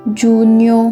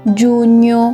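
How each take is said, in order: Both takes have the same delivery.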